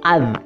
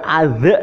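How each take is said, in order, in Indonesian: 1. Konsonan akhir ditahan diam, tidak memantul. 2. Konsonan akhir dilepas dengan pantulan bergema. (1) "tapi az" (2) "Bukan az"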